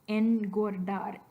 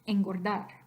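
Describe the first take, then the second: First: The n is a plain n sound. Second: The n is an ng-like velar sound. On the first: The speaker calls it wrong. "a regular N sound and a regular G sound in this word? I can, but it's going to be weird" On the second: The speaker calls it right. "Natural speech"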